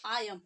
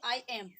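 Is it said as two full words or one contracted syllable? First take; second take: contracted; full. First: It is said as one contracted syllable. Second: It is said as two separate full words. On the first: The speaker calls it right. "Short form में ... ऐसे बोलेंगे आई एम" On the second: The speaker calls it wrong. "ना कि आई एम"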